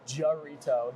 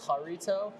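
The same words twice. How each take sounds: First: The word is said with a heavy American accent. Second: The word is said halfway between both accents. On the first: "You could really whiten it up" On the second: "the in between"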